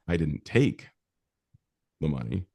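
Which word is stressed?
take. The stress is on "take".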